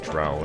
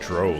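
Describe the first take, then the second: First: The vowel rhymes with 'cow'. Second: The vowel rhymes with 'go'. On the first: The speaker calls it right. "they pronounce it drow in Baldur's Gate two" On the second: The speaker calls it wrong. "I used to call it dro"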